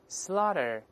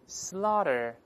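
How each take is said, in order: First: It is said fast with a voiced, flapped t. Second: The same.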